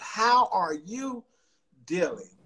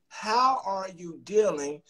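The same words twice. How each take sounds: First: It is said slowly. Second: It is said at normal speed.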